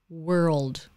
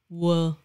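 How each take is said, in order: First: The final L and D sounds are clearly pronounced. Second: The final L and D sounds are dropped. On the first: The speaker calls it right. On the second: The speaker calls it wrong.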